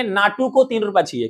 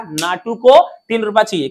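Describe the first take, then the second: First: Said in the usual way. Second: Naatu को तीन रुपया चाहिए recited a bit louder, stress on को; mnemonic recited louder. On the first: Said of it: "कैसे बोलेंगे?". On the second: Shown as a demonstration. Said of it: "क्या बोलना बेटा?".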